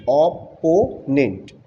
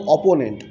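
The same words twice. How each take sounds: First: অপোনেন্ট said very slowly, split into syllables. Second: Said in the usual way. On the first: Shown as a demonstration. Teacher showing students the syllables of অপোনেন্ট, very slowly. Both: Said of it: "তারপরে syllable division".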